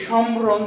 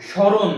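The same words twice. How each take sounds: First: সমরণ with the ম sounded out; wrongly pronounced সমরণ, m fully heard; wrong pronunciation. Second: স্মরণ with the ম silent; emphatic model স্মরণ, m dropped after sh; correct pronunciation. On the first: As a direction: say সমরণ, voicing an m after the opening sh. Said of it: "এরকম বলি না". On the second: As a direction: say স্মরণ as "shoron", no m sound. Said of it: "কি উচ্চারণ করি?". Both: Shown as a demonstration.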